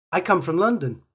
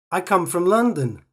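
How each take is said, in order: Both takes have the same delivery.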